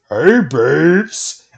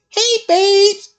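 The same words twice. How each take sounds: First: The voice is pitched noticeably lower. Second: The voice is light and high-pitched.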